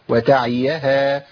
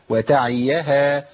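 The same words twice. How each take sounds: Both takes have the same delivery.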